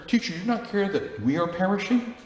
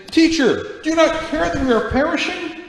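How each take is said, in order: First: Raised pitch, understated worried plea; mildly anxious question at ordinary volume; concerned. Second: High, loud hammed-up desperate cry; mock-panicked shout, far higher than usual; over-the-top panic. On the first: Acted. Distracted disciples pleading with their teacher, mildly concerned. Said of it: "They're concerned". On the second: Disciples crying to Jesus in the storm, over-the-top panic. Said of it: "That wasn't over the top".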